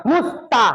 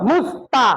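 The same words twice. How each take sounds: No difference in how they are said.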